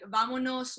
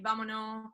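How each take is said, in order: First: The word is said fully, every sound finished. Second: The word is clipped, Chilean style, ending unfinished.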